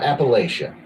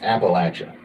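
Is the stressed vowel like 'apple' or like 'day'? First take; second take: day; apple. First: The stressed vowel sounds like the 'a' in day. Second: The stressed vowel sounds like the 'a' in apple. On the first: The speaker calls it wrong. "Not Appalachia" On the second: The speaker calls it right. "the correct way to say Appalachia is Appalachia. Think of a, I'm throwing an apple at you"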